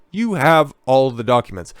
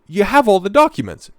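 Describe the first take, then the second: First: "You" stressed at the start, less loud. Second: "have" punched, higher and louder; "have" hit high and loud in rising indignation; stress on have. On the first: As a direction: point at him with "You". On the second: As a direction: lean hard on "have", you do have them. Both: Shown as a demonstration.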